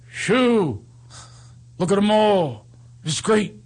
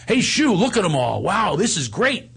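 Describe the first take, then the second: First: High, halting bad-actor delivery; unnatural line reading. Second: Higher, excited movie line; scripted line as intended. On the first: Panicked amateur actor on his first take, stilted recital. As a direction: recite it in stiff, separate chunks. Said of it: "I don't talk like this". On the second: Acted. Actor's line on a nude beach, eagerly delivered. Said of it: "That was his line".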